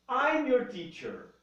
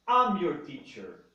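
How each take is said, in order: First: The two words are joined into one syllable. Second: The start is reduced to a short 'am' sound. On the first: "Eu posso falar I'm" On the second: "a mais compacta de todas as pronúncias"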